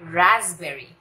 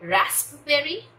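First: The middle has a 'z' sound instead. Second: The middle has a clear 'sp' sound. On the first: The speaker calls it right. "Deep sound है और एस पी की जगह ज है" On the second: The speaker calls it wrong. "रास्पबेरी नहीं"

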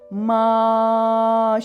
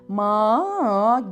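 First: The held vowel stays perfectly steady. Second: The held vowel wavers up and down. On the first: The speaker calls it right. "ma şeklinde dümdüz gitmesi" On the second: The speaker calls it wrong. "dalgalanmalar olmadan ma gibi değil"

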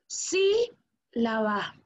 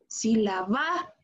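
First: The stress falls on the first syllable. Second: The stress falls on a later syllable. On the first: The speaker calls it right. "nosotros decimos si la va" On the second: The speaker calls it wrong. "Ni si la va"

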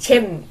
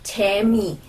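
First: It is said fast, squeezed into one syllable. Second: It is said slowly as two full syllables. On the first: "就变成切米" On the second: "切米这东西念快一点"

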